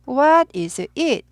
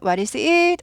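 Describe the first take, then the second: First: The voice falls at the end. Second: The voice rises at the end. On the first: The speaker calls it right. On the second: The speaker calls it wrong.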